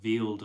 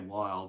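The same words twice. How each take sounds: First: The name is said the Swiss way. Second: The name is said the ordinary English way. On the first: "if you were in Switzerland, you'd say it differently" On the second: "I know I say wild"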